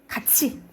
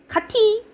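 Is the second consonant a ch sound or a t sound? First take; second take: ch; t. First: The second syllable starts with a ch sound. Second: The second syllable starts with a t sound. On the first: The speaker calls it right. "뭐라고 발음해요? 같이" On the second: The speaker calls it wrong. "가티 가자 라고 안 하고"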